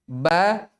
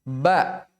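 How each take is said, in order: Both takes have the same delivery.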